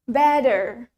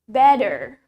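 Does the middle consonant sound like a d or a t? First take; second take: d; d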